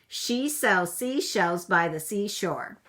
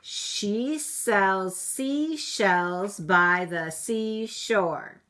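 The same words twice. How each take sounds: First: It is said fast. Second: It is said at a normal speed.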